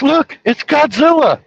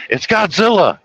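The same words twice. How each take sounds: First: Put-on high, loud, slow kid's shout; kid yelling Godzilla. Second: Put-on coached kid line. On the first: Boy pointing at his mom's friend, a high slow shout. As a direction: cry out like a kid spotting a monster. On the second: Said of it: "point and say".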